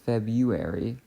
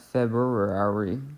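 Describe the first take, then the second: First: The r after the b is not pronounced. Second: The r after the b is clearly pronounced. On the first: The speaker calls it right. "That R is doing nothing because we pronounce it February" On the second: The speaker calls it wrong. "not February"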